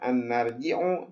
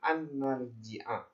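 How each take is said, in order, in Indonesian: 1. Kata kerjanya berakhir dengan vokal 'u'. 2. Kata kerjanya berakhir dengan vokal 'a'. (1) "bukan an narji'u" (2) "tapi an narji'a"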